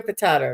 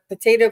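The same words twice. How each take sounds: First: "potato" said as puh-TAH-toh; open A vowel. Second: "potato" said as puh-TAY-toh; long A vowel. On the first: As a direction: middle vowel of "potato" as in father. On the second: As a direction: middle vowel of "potato" as in day. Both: Shown as a demonstration. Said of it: "Just Visiting said".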